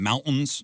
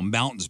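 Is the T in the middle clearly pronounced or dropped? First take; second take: dropped; pronounced. First: The middle T is dropped, Colorado style. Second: The middle T is clearly pronounced.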